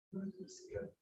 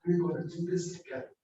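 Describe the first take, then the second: First: Whispered repeat of the line; softly whispered, almost no voice. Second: Said in the usual way. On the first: Shown as a demonstration. Preacher whispers the line back to the congregation.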